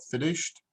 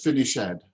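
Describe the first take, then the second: First: The ending is a short 't' sound. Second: The ending is a separate 'ed' syllable. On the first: The speaker calls it right. "it's a T sound" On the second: The speaker calls it wrong. "what you said was finish ed"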